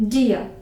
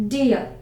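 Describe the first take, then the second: The two takes are said the same way.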